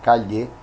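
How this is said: It is said with a Bolivian accent. "como en Bolivia o en la ciudad de Cuenca de Ecuador, se pronuncia"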